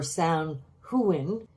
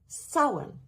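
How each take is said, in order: First: It is said with English spelling sounds. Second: It is said with the Irish Gaelic sounds. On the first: The speaker calls it wrong. "should not be anglicized in pronunciation as" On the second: The speaker calls it right. "In the Irish Gaelic, ... it's pronounced Samhain"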